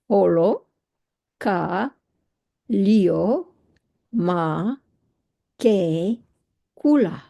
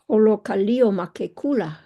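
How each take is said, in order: First: Each word is said separately with pauses between. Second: The words run together without pauses between.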